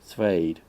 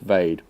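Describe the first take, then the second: First: A soft T sound comes before the V. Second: No T sound comes before the V. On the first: "like a really soft T" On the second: "or is it just Vade"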